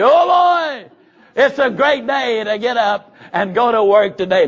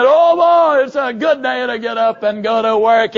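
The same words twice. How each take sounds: First: Much higher, louder burst of enthusiasm; forced cheer. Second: Loud, high cry that sags into the line; half-asleep but pushing the enthusiasm; sleepy forced cheer. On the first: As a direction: shout your good morning like you mean it. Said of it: "you slap your hands and you say". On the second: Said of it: "And you're saying". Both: Shown as a demonstration.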